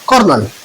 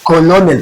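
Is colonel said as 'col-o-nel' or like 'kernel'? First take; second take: kernel; col-o-nel. First: It is said like kernel, with two syllables. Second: It is read as spelled, like col-o-nel. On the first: This is how the word is actually pronounced. "Produce होता है कर्नल" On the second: This reading helps remember the spelling. "अपने अल्फाज में उसको बयान सीखेंगे तो कॉलोनियल पढ़ेंगे"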